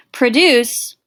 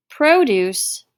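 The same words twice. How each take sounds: First: "Produce" as pruh-DOOCE, stress at the end; second syllable carries the weight in "Produce"; verb produce. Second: "Produce" as PROH-dooce, first syllable stressed; noun produce. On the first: Teacher labelling the verb form, stress on the second syllable. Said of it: "is a verb". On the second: Teacher naming the vegetable word, stress on the first syllable. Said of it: "refers to vegetables". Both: Shown as a demonstration.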